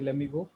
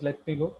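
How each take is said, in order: First: American style, the t sounds are dropped. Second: The t sounds are clearly pronounced.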